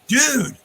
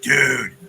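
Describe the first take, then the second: First: It sounds high and excited. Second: It sounds low and disappointed. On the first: Someone has arrived as hoped. "oh man, the man showed up" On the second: Someone failed to arrive. "oh, he didn't show up"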